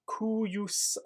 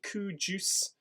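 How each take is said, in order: First: The word does not sound like 'coo juice'. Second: The word sounds like 'coo juice'. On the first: The speaker calls it right. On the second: The speaker calls it wrong.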